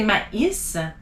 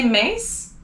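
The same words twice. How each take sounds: First: "maïs" in two syllables, ma-EES; tréma emphasized. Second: "maïs" as one syllable, like "mace"; tréma ignored. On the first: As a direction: separate a and i in "maïs": mah-eess. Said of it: "you wanna say maïs". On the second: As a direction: merge the a and i of "maïs" into "ay". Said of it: "you don't wanna say maïs". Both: Shown as a demonstration.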